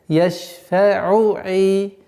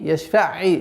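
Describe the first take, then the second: First: The u vowel is fully voiced before the next ayn. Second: The final vowel merges straight into the next word. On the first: The speaker calls it right. "Договаривать айн с огласовкой дамма" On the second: The speaker calls it wrong. "Нет"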